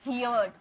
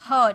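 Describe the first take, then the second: First: The vowel sounds like the word 'here'. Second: The vowel sounds like the word 'her'. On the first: The speaker calls it wrong. "बहुत सारे student इसे हियर्ड बोलते हैं ... no, हियर्ड नहीं बोलना है" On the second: The speaker calls it right. "हर्ड बोलना है"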